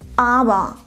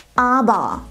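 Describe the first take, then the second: Both takes have the same delivery.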